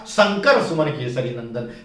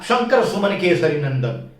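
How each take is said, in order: First: The first word begins with a dental 's' sound. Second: The first word begins with a palatal 'sh' sound. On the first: This reflects local speech around Banaras. "उन्होंने कहा" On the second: This is the standard pronunciation. "उन्होंने ये नहीं कहा"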